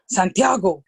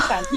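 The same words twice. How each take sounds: First: Santiago said flat and firm, falling at the end; stern full name. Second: Santi sung up high with a bright rising lilt; happy pet name. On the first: Retold or imitated. Big policeman sternly saying the boy's full name Santiago, falling firmly. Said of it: "he stood there and he said". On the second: Shown as a demonstration. Mom showing the happy way she calls her son Santi, high and rising. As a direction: call him Santi sweetly, sliding up at the end. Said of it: "when we're happy, Santi".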